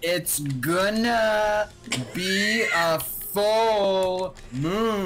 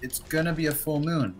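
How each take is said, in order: First: It is said loudly and very dramatically. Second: It is said in a tiny, small voice. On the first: Annoyed that nobody had listened. "like very dramatically" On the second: A quiet remark nobody noticed. "he said it in this like tiny voice"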